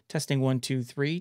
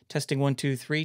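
First: The voice has more low-end bass. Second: The voice has less low-end bass. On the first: "Let's add some more low end" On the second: "I've added a lot of bass to kind of fill it out"

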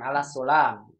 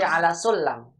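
First: The vowel in the la syllable is long. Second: The vowel in the la syllable is short. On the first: The speaker calls it wrong. "Bukan ala sulam" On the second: The speaker calls it right. "lanya pendek"

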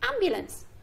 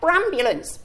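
First: The word starts directly with a vowel. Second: The word starts with an added br sound. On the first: The speaker calls it right. "Shall we see if he can say it properly?" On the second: The speaker calls it wrong. "Is that right? No"

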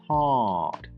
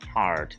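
First: British accent; the stressed vowel is longer. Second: American accent; the stressed vowel is shorter.

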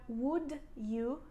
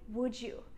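First: The d and y are said separately. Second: The d and y blend into j. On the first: The speaker calls it wrong. "I don't say" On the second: The speaker calls it right. "D is pronounced like j sound"

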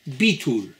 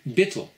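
First: It is said with an Israeli Hebrew pronunciation. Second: It is said with an Ashkenazi Hebrew pronunciation. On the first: "this time with an Israeli pronunciation"

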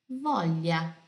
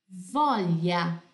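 The two takes are said the same way.

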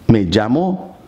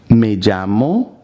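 No difference in how they are said.

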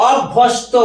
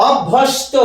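No difference in how they are said.

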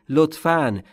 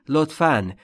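Both takes have the same delivery.

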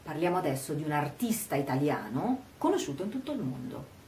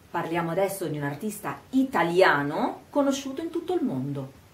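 First: Emphasis falls on 'artista italiano'; the rest is quicker. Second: 'Italiano' alone is slowed and emphasized; the rest is fast. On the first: The subject is an Italian artist. "mettere l'accento sul fatto che questo artista sia un artista italiano" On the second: The artist's nationality matters. "rallento quando dico italiano? Enfatizzo e rallento, ma il resto è veloce"

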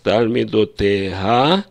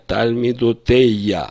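First: An h sound comes before the final vowel. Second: A y sound replaces the h before the end.

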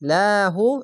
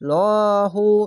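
First: The l sound is light and thin. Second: The l sound is heavy and thick. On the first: "নিচে যদি আসে তাহলে পাতলা করে হবে লাহু" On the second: "এখানে ওপরে আছে তার জন্য লহু"

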